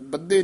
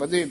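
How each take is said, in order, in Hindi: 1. बीच का व्यंजन दोहरा और रोका हुआ है। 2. बीच का व्यंजन एकल और हल्का है। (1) "ਬੱਧੇ ਨਹੀਂ ਕਹਿਣਾ" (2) "ਬਧੇ ਪੋਲਾ ਬੋਲਣਾ"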